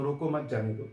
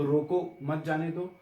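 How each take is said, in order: First: रोको मत grouped as one phrase, then जाने दो; comma after मत. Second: Short break after रोको, then मत जाने दो run together; comma after रोको. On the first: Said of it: "मत" के बाद लगाएंगे". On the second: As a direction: say रोको, pause, then मत जाने दो as one phrase. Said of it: "अगर रोको के बाद कॉमा लगा देंगे". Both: Shown as a demonstration.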